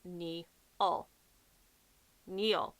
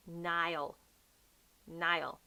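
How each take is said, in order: First: Niall as NEE-all, drawn out; spelled-out mispronunciation. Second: Niall as NYE-ul; correct Niall. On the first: Showing how people misread the character's name, NEE-all. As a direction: say Niall slowly with EE first. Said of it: "when they pronounce it out". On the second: Correcting viewers on the character's name, NYE-ul. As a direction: say Niall with an EYE vowel, falling. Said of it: "it's actually". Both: Shown as a demonstration.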